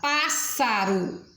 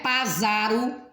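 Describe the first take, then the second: First: The middle consonant is a hissing s sound. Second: The middle consonant is a buzzing z sound. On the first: The speaker calls it right. "como se fosse um S só" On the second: The speaker calls it wrong. "não é pásaro"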